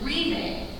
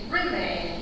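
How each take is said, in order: First: The first syllable has a long 'ree' vowel. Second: The first syllable has a short 'rih' vowel. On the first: The speaker calls it wrong. "instead of re and d" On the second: The speaker calls it right. "It's always rim and dip instead of re and d"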